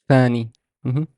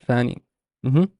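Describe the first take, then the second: The two takes are said the same way.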